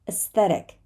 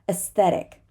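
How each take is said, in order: The two takes are said the same way.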